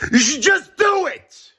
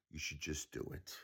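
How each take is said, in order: First: Very high-pitched, drawn-out yell; exasperated shout. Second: Very soft, lower aside; hushed repeat. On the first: Ranting at the billionaire to donate, exasperated shout. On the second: Repeating the demand to the billionaire after shouting, very quiet. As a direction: drop it right down, almost under the breath. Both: Real, not acted.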